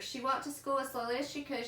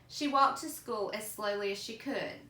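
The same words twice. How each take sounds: First: The sentence is read quickly. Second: The sentence is read slowly. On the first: The speaker calls it wrong. "I was reading too fast" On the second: The speaker calls it right. "reread a little bit more slowly"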